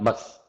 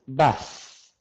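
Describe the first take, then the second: First: The word is clipped very short. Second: The word is drawn out longer. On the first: The speaker calls it wrong. "it's not so short. It's not bus" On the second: The speaker calls it right. "It's bus"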